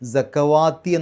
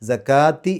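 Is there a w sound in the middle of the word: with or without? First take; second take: with; without. First: A w sound is said in the middle. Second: No w sound is said in the middle. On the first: The speaker calls it wrong. "സക്കവാത്തി എന്നല്ല" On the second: The speaker calls it right. "സക്കാത്തി എന്നാണ് ഓതേണ്ടത്"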